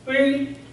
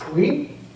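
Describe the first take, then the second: First: The tone does not rise through the syllable. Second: The tone rises through the syllable. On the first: It means blue-green. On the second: It means clear weather.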